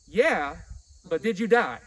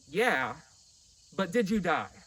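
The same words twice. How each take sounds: First: It is said like a scolding angry mother. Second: It is said in a plain, neutral way.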